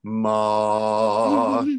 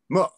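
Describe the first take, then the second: First: The pitch stays high and level throughout. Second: The pitch dips down and then rises again. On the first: "like that, right? Just one pitch" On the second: "your voice kind of goes down and then up again"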